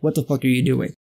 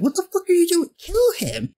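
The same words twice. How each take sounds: First: Lower, exasperated Yoda; a low, fed-up Yoda; mock Yoda. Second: Much higher, panicked outrage; a high, panicky chorus of disbelief; alarmed squeal. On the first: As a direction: growl it down low like a disgusted old master. Yoda's reaction imitated. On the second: Retold or imitated. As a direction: shriek it in horrified disbelief. Everyone reacts in alarm.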